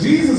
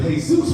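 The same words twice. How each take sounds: First: It is said the English way, JEE-zus. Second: It is said the Spanish way, hay-SOOS. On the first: It refers to the religious figure. "Jesus will save you" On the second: It refers to an ordinary Mexican man. "Jesus is the Mexican version of Tyrone"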